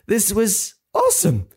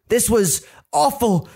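First: High, thrilled leap on "awesome"; sudden delight. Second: Slow, higher-pitched AWFUL, drawn out; dramatic dismay. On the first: Adam realising he is famous, thrilled delight. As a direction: flip into gleeful amazement on "awesome". Adam's dismay flips to delight. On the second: Adam realising his video is on TV, dramatic dismay. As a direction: let "awful" land as mock horror. Adam's horror, contrasted with delight. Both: Acted.

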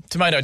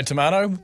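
First: "tomato" with a long AY in the middle; American tomato. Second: "tomato" with a long AH in the middle; British-style tomato. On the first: Host excuses accent differences to co-host, "tomato" with an AY vowel. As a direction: say "tomato" as tuh-MAY-doh. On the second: Host excuses accent differences to co-host, "tomato" with an AH vowel. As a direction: say "tomato" as tuh-MAH-toh. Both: Shown as a demonstration. Two sayings of tomato contrasted.

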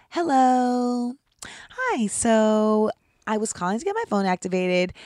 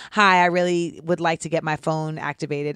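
First: Prim, proper phone voice; polite customer service voice. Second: Said in the usual way. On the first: Shown as a demonstration. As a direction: put on a sweet, prairie bonnet politeness. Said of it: "I have to change my voice when I call customer service". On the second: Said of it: "I can't hit 'em with the".

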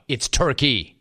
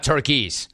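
First: Said in the usual way. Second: "Turkeys" with an s tacked on the end; wrong plural. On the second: Shown as a demonstration. Host correcting Pierce, pointed plural "Turkeys". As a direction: sound the extra plural s in "Turkeys". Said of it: "not Turkeys".

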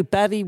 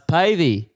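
First: "Pavey" as PAV-ee, short a, pitched higher; mispronounced surname. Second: "Pavey" as PAY-vee, long a; correct surname. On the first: Host checks the guest's surname live, "Pavey" wrongly said PAV-ee. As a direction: say "Pavey" to rhyme with savvy. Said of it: "Uh, it's Pavey". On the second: Guest corrects the radio host, "Pavey" slowly said PAY-vee. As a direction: slowly say "Pavey" to rhyme with wavy. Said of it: "Is that how to say your last name". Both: Retold or imitated.

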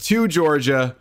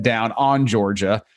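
First: Said in the usual way. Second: Slow, stressing "on" in "Down on Georgia"; "Down on Georgia" as Charlie said it. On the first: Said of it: "Instead of". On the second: Retold or imitated. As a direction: repeat the slip "Down on Georgia" slowly, leaning on "on". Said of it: "he said".

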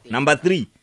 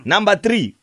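First: Said in the usual way. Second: "three" punched higher and louder; stress on three. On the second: Shown as a demonstration. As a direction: hit "three" hard and high.

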